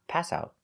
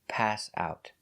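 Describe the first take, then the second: First: Only one of the two words is stressed. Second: Both pass and out are stressed.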